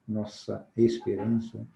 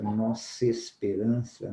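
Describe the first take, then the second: First: Nossa esperança slow, every vowel kept, the A of Nossa clear; careful separate vowels. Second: Nossa esperança slow, the final A of nossa swallowed; vowel dropped in linking. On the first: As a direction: keep the A of Nossa, no linking. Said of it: "cadê o A?". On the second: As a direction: run nossa into esperança and lose the A. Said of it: "cadê o A? Sumiu, né?". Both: Shown as a demonstration.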